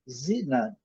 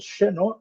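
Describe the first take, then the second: First: The stress is on the first syllable. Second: The stress is on the last syllable. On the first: This is the English way of saying it. "eles colocam aqui na primeira" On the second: This is the Brazilian Portuguese way of saying it. "Nós colocamos a sílaba tônica na última"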